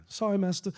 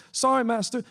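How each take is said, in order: First: Higher, cringing and eager to please; grovel, voice pitched up in fear; simpering apology. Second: Much higher and louder, near a cry; desperate pleading. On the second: Chester pleading with master Terrence as the cane falls, high and loud. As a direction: beg louder as panic rises. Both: A narrator's reading. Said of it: "Chester simpered and bowed down".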